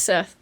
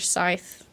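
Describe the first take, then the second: First: The vowel sounds like the one in 'bet'. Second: The vowel sounds like the one in 'bike'. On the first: The speaker calls it right. "but it's Seth" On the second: The speaker calls it wrong. "Everybody says Scythe"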